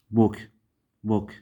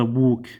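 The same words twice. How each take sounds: First: بوك short and lax, like "buhk"; irregular short vowel. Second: بوك with a long rounded "oo"; wrong long vowel. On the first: Teacher models the exception, short vowel in بوك. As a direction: clip the vowel in بوك, no long "oo". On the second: Teacher shows what not to say, long "oo" in بوك. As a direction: stretch بوك into a mistaken "booook". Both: Shown as a demonstration. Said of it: "ما نلفظها بوك".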